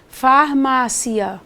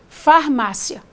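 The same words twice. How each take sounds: First: The final vowels are split apart slowly. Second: The final vowels are run together quickly. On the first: The ending forms a hiatus. "falar lentamente, falar em quatro sopros" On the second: The ending forms a diphthong. "Se você pronuncia esse conjuntinho rapidamente"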